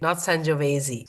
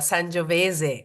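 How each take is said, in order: First: The word ends in an 'ee' vowel. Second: The word ends in an 'ay' vowel. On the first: The speaker calls it wrong. "not an I" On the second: The speaker calls it right. "it ends in an E"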